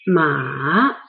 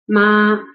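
First: The pitch dips low and then rises. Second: The pitch stays high and level. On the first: "The third, the transition tone" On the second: "The first flat tone"

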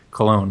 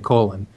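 First: The name sounds like the word cologne. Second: The name sounds like the word colon. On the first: The speaker calls it right. "It's pronounced cologne, like the cologne" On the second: The speaker calls it wrong. "it's okay to say colon"

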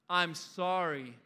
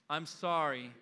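The two takes are said the same way.

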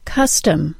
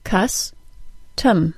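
First: The word is said as one smooth unit. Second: The word is split into separate syllables. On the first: "I'll say the word as a whole unit first" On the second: "then I'll break it into syllables"

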